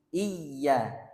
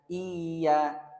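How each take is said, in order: First: The first vowel goes straight into the ya. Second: The first vowel is drawn out before the ya. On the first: The speaker calls it right. "langsung ke huruf ya-nya" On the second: The speaker calls it wrong. "sebagian itu membaca iya, iya. Jadi kayak ada panjangnya di situ"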